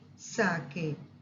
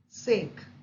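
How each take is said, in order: First: The first vowel sounds like 'ah' in father. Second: The first vowel does not sound like 'ah'. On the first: It names a Japanese drink. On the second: It means for the purpose of.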